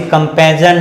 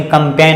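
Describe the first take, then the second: First: "कंपेजन" with g sounded as z or j; misread campaign. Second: "कंपेन" in two syllables ending on n; silent g. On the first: Teacher warns pupils off a misreading, "कंपेजन" with g voiced. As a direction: add the extra syllable in "कंपेजन". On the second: Teacher gives pupils the right reading, "कंपेन" without g. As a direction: drop the g, say "कंपेन". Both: Shown as a demonstration. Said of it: "इसे कंपेजन नहीं पढ़ेंगे".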